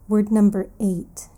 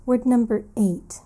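The two takes are said the same way.

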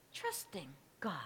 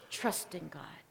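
First: Trusting God said much softer and lower; quiet, low trusting God. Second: Trusting God dropped to a low whisper; hushed. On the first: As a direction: let it fall away quietly. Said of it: "preacher repeats the choice". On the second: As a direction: breathe the second road softly. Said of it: "preacher contrasts the two paths". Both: Shown as a demonstration.

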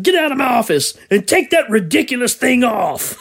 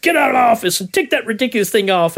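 First: High, laughing boss order; barking tyrant boss. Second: Quick, higher barked order; barking tyrant boss. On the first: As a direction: bark the order while laughing. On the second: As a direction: bark it fast like a boss. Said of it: "And he's like". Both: Retold or imitated.

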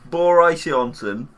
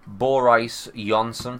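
First: Boris Johnson louder and higher, slow; echoed pronunciation. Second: Boris Johnson said slowly as Bor-ice; pronunciation. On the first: Retold or imitated. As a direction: repeat Boris Johnson loud and high, slow. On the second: Shown as a demonstration. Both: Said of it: "I think it's pronounced".

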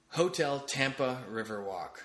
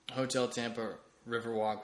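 First: Slow, stretched-out venue name; drawn-out announcement. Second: Said in the usual way. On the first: Real, not acted. Podcaster plugging his trivia night venue, drawn-out announcement.

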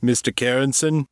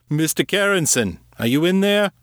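First: Lightly voiced gruff man calling out; a hint of a gruff male enquiry; gruff caller. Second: Insistent call, pitch well up; higher, more pressing gruff caller. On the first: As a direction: call through a door, questioning, higher pitch. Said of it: "A voice called. It sounded deep, gruff, and male". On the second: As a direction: demand an answer through the door. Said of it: "more insistent". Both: A narrator's reading.

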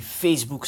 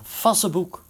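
First: Said in the usual way. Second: "Facebook" misread as FAS-suh-book; mispronounced Facebook. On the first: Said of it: "gaat hij Facebook zeggen". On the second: Shown as a demonstration. Host explaining what gets replaced, "Facebook" mispronounced fas-se-boek. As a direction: say "Facebook" with a short a and three syllables, fas-se-boek. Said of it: "gaat hij in plaats van Facebook".

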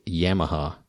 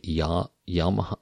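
First: Yamaha as "YAM-uh-ha"; short flat "a" as in yam opening Yamaha; own pronunciation. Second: Yamaha as "YAH-muh-hah"; most people's pronunciation. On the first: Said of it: "I guess I say". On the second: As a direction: open "ah" opening Yamaha, tried out carefully. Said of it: "most people say". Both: Shown as a demonstration.

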